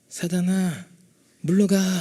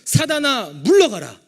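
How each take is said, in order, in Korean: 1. 작고 조용한 목소리로 말합니다. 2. 크고 힘찬 목소리로 말합니다. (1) "막 작은 목소리로" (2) "믿음으로 담대하게 선포하십시오"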